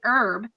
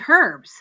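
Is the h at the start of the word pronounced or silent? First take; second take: silent; pronounced. First: The word starts without an h sound. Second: The word starts with an h sound. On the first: This is how it is said in America. "they don't say herb" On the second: This is how it is said in England. "they say herbs, right? Because they pronounce the H"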